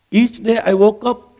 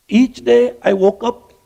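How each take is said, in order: Both takes have the same delivery.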